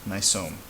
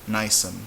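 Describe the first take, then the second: First: The stress is on the last syllable. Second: The stress is on the second-to-last syllable. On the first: "make it an exception and put a mark on the O" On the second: "by default, it's going to be like minute"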